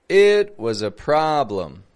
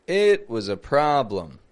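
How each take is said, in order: Both takes have the same delivery.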